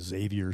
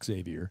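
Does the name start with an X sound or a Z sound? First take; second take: Z sound; X sound. First: The name starts with a Z sound. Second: The name starts with an X sound. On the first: The speaker calls it wrong. "more of a Z sound. That's not it" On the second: The speaker calls it right. "Get that X in there"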